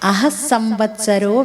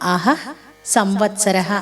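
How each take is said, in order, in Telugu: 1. పదాలు కలిపి చెప్పబడతాయి, చివరి అక్షరాలు కలిసిపోతాయి. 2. పదాలు విడివిడిగా చెప్పబడతాయి, ప్రతి పదం చివరి భాగం అలాగే ఉంటుంది. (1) "కలిపి చదివేటప్పుడు" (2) "విడదీసినప్పుడు"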